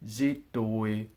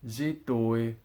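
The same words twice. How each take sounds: The two takes are said the same way.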